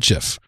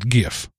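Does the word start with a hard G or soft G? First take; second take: soft G; hard G. First: The word begins with a soft G sound. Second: The word begins with a hard G sound. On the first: "if you're from France and you pronounce soft G's all the time, call it a GIF" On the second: "I'm a red-blooded American, and I'm going to call it GIF"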